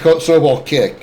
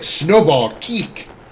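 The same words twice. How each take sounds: First: It is said in a flat, plain way. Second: It is said with lively, showy energy. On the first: The speaker calls it wrong. "It's just boring" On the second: The speaker calls it right. "You have to say it that way too"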